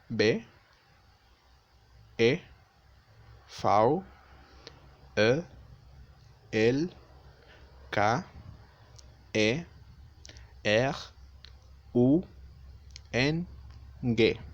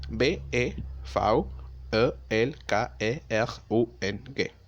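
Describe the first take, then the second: First: The letters are spelled out slowly. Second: The letters are spelled out quickly. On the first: "Más lento" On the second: "Ahora vamos a hacerlo un poco más rápido"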